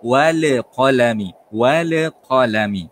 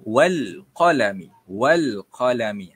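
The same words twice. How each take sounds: First: "wal qalami" with the lam in "wal" bounced, louder and slow; "wal" said with an echoing bounced lam; bouncing the lam. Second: "wal qalami" with the lam in "wal" held clear and smooth, no bounce. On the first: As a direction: make the l in "wal" rebound like qalqalah. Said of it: "cara bacaan yang lantun". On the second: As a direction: glide cleanly through "wal". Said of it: "bacaan yang betul ialah". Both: Shown as a demonstration.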